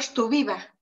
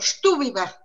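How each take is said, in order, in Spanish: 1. El acento no está en la primera sílaba. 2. El acento está en la primera sílaba. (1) "si no tuviera acento, diría" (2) "Eso suena fuerte las primeras sílabas"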